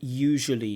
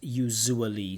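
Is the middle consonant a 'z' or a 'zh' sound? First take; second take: zh; z. First: The middle consonant is a 'zh' sound. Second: The middle consonant is a 'z' sound. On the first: The speaker calls it right. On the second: The speaker calls it wrong.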